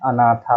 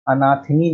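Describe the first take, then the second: First: अनाथा ending in long -thaa; correct -aa ending. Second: अनाथिनी ending in -thini; wrong -ini ending. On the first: Teacher giving the correct feminine, अनाथा ending in -aa. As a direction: end अनाथा on an open aa. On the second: Teacher naming the error, अनाथिनी with -ini ending. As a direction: end अनाथिनी on an -ini sound. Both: Shown as a demonstration. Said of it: "अनाथिनी नहीं होता है".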